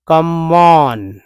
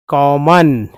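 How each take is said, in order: First: कमॉन stretched slowly as two parts, "कम-ऑन"; wrong split reading. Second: कॉमन said as one word, "कॉ-मन" with open o; correct pronunciation. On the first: Teacher showing the wrong way to join the syllables. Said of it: "दोनों को मिलाकर एक ही म पढ़ेंगे". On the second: Teacher giving the right reading after the wrong one. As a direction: say कॉमन smoothly, single m. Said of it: "कम नहीं कॉमन". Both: Shown as a demonstration.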